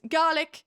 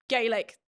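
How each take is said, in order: First: The word is given its Scottish pronunciation. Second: The word is given its Irish pronunciation. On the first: It names the Scottish language. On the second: It names the Irish language.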